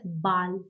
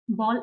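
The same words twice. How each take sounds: First: Ball with an open "ah", like "bahl"; German pronunciation. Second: Said in the usual way. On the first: Shown as a demonstration. Teacher correcting the English sound for learners, German Ball as "bahl". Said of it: "it's pronounced as Ball". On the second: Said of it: "is actually in English".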